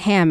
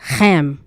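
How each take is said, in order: First: It begins with a plain, light H sound. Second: It begins with a rough, throaty K-like sound. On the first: "why is it ham" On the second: "and not ham? ... where is the K in like hamburger?"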